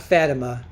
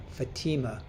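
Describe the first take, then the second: First: Fatima said FAT-uh-muh, first syllable like fat; wrong Fatima. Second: Fatima said fuh-TEE-muh, stress on the long ee; right Fatima. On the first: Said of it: "Not Fatima". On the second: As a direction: put the weight on TEE in Fatima. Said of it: "Not Fatima, Fatima". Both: Shown as a demonstration.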